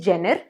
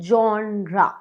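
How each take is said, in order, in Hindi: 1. यह शब्द 'jen' ध्वनि से शुरू होता है। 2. यह शब्द 'zhon' ध्वनि से शुरू होता है। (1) "जो कि गलत है" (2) "इसे हम कहते हैं जॉनरा"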